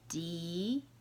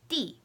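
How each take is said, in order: First: The pitch rises from middle to high. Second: The pitch falls sharply from high to low.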